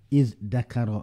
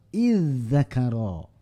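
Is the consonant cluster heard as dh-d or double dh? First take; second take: dh-d; double dh. First: A dh sound is followed by a d sound. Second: A doubled dh sound is heard, without d. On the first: "Za kemudian dal" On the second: "Jadi dua-duanya zal"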